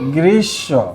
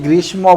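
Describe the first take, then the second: First: The m is silent and the sh is doubled. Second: The m sound is pronounced after the sh. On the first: The speaker calls it right. "যার নিচে বসবে তাকে দুইবার পড়তে হয়" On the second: The speaker calls it wrong. "এখন তোমরা অনেকে কিন্তু এটাকে গ্রীষ্ম বলে"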